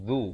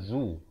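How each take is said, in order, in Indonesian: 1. Bunyi z itu bunyi huruf Arab. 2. Bunyi z itu z Melayu biasa.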